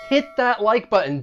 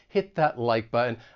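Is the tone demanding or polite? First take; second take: demanding; polite. First: It is yelled loudly and demandingly. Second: It is asked gently and politely. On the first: The listener is being ordered to act. "If I were just like yelling at you loudly" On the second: The listener is being asked nicely. "I want to ask you politely"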